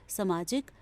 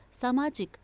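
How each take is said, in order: First: सामाजिक said with a short a, like sə-maajik; wrong form read. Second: Said in the usual way. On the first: Shown as a demonstration. Teacher showing children the mistake: सामाजिक with a short first a. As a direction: shorten the first vowel of सामाजिक, slight rise. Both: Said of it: "आ की मात्रा होनी चाहिए".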